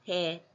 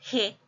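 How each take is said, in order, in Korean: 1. 더 힘을 주지 않고 평범하게 발음됩니다. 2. 더 힘을 주어 발음됩니다. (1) "무난하게 그냥 평범하게 읽는다면" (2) "좀 힘을 줘야 돼"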